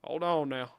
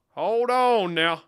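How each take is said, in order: First: Said in the usual way. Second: Slow, high, loud call; exaggerated long, raised-voice stall; drawn-out holler. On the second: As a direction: stretch the words out and holler them.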